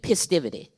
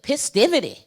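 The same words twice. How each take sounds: First: The word is said flatly, without feeling. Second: The word is said with angry feeling.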